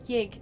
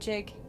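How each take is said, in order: First: The word starts with a Y sound. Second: The word starts with a J sound. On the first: The speaker calls it right. "I would have said yig" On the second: The speaker calls it wrong. "not jig"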